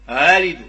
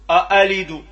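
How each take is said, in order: First: The second hamza is softened, between catch and vowel. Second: The second hamza is a full glottal catch. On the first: The speaker calls it right. "بين تنقولوا" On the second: The speaker calls it wrong. "هذه همزة خالصة"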